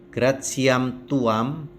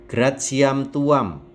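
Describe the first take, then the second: Both takes have the same delivery.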